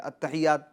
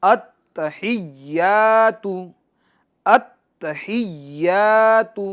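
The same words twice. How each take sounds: First: التحیات said quickly with a light ta and ya, not doubled; quick, careless التحیات without the doubled letters; wrong version. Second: التحیات with the ta and ya doubled and pressed; doubled letters stressed. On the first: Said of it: "التحیات نہیں". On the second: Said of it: "اس کو تھوڑا زور دے کے". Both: Shown as a demonstration.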